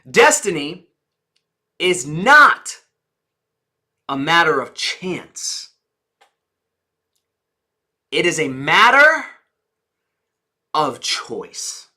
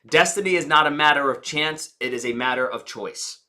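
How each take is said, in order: First: Key words are strongly emphasized for feeling. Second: It is said plainly, without strong emphasis.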